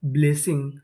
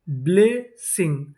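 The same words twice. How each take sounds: First: Said in the usual way. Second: blessing slowly split as ब्ले, Singh; syllable by syllable. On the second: Shown as a demonstration. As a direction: sound out blessing in two parts. Teacher sounding out new word.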